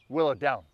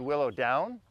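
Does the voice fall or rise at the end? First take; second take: fall; rise. First: The voice falls firmly at the end, like an order. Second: The voice rises at the end, like a question. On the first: It tells the dog to do it. The speaker calls it right. "Like a command means do it" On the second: It asks rather than tells. The speaker calls it wrong. "Is it a question?"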